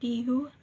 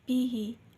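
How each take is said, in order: First: The word ends with a 'u' vowel. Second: The word ends with an 'i' vowel. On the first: The speaker calls it wrong. "tidak dibaca" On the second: The speaker calls it right. "sebelumnya kasroh atau ya sukun"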